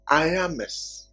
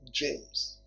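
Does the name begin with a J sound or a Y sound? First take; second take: Y sound; J sound. First: The name begins with a Y sound. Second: The name begins with a J sound. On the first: This is the Spanish pronunciation. "try to pronounce it in Spanish, right? It will be Iames" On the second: This is the English pronunciation. "in English, you call it James"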